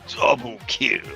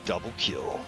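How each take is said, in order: First: It is said in a booming announcer voice. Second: It is said in an ordinary conversational voice.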